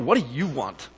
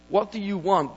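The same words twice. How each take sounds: First: It is said in an annoyed, hostile tone. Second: It is said as a plain, neutral question.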